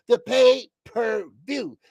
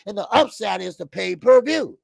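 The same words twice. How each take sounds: First: The pay-per-view drawn out slowly, each word stressed; slow emphatic repeat. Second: Said in the usual way. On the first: Shown as a demonstration. Explaining the upside, slow and emphatic on The pay-per-view.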